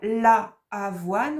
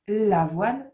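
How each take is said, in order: First: The vowel of 'la' is fully pronounced. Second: The vowel of 'la' is dropped and joined. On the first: The speaker calls it wrong. "au lieu de dire la avoine" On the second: The speaker calls it right. "on dit l'avoine"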